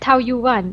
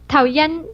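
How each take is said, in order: First: The second syllable sounds like 'yuan'. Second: The second syllable sounds like 'yen'. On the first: The speaker calls it wrong. "we are mispronouncing the name of the airport" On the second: The speaker calls it right. "according to Google Translate, it's pronounced Taoyen"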